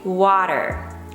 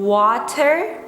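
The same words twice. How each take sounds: First: The middle T is a soft D. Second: The middle T is a crisp T sound.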